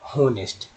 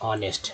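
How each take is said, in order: First: The word starts with an audible h sound. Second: The word starts with a vowel, no h. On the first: The speaker calls it wrong. "ना कि पढ़ते हैं होनेस्ट" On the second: The speaker calls it right. "पढ़ते हैं ऑनेस्ट"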